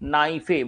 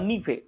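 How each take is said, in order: First: The first syllable sounds like 'nigh'. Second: The first syllable sounds like 'nee'. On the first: "উচ্চারণ যেমনই করা হোক না কেন" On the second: "উচ্চারণ যেমনই করা হোক না কেন"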